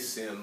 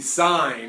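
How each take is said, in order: First: The word is said with a short vowel, like 'sin'. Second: The word is said with a long vowel, like 'sign'. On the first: The speaker calls it wrong. "Please don't say sin" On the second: The speaker calls it right. "It is the sine of angle A"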